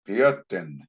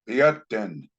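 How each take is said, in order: Both takes have the same delivery.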